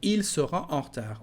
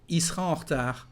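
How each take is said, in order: First: The l and the e sound are pronounced. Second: The l and the e sound are dropped. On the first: "instead of" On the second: "You can drop the letter L of the subject il and just say I, and again the letter E"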